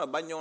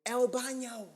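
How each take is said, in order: First: Said in the usual way. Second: Put-on high-pitched American-accented Spanish. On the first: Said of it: "I clearly could say". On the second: Customer asking waiter for the toilet, high American-accented Spanish. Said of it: "in an American accent".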